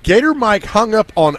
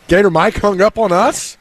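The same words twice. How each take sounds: First: High start on "Gator", falling away to "us"; dismayed repeat. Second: High, rising disbelief through to "us"; incredulous question. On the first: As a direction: state it in dismay, dropping at the end. Repeats the news as a statement. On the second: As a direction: ask it in disbelief, lifting "up on us". Disbelief at a dropped call. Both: Real, not acted.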